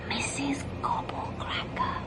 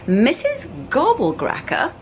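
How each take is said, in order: First: Whisper. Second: Said in the usual way. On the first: A narrator's reading. Luke shows Rascal how to say her name, whispering. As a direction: breathe the dreaded name in a whisper. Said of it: "You have to whisper when you say her name like this". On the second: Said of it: "You have to whisper".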